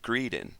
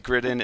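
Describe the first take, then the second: First: The first vowel sounds like 'ee'. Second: The first vowel is a short 'i'.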